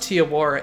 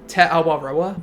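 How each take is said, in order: First: The name is run together as 'Tiawara'. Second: The name is said as 'Te Awaroa'. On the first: The speaker calls it wrong. "It's not pronounced Tiawara" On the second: The speaker calls it right. "it's like Te Awaroa"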